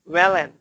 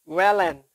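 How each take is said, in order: The two takes are said the same way.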